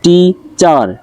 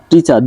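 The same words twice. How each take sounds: First: টিচার split as টি, চার; two separate beats on টিচার; syllable by syllable. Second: Said in the usual way. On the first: Shown as a demonstration. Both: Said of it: "টিচার দুইটা".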